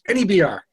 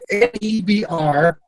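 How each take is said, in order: First: The letters are run together very fast. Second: The letters are spoken slowly and separately.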